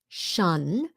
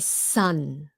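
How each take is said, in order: First: The syllable begins with a sh sound. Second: The syllable begins with an s sound. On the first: The speaker calls it right. "It's sh, S H, like quiet" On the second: The speaker calls it wrong. "but they say sun"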